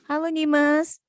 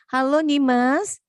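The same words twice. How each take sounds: First: Said in the usual way. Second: Slow and loud, drawn out; to someone hard of hearing. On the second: Real, not acted. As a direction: call slowly so a struggling listener catches it. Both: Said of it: "Kenapa nggak dengar ya suara kakak ya?".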